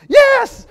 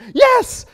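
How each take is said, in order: First: The word is said with high excited energy. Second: The word is said with high excited energy.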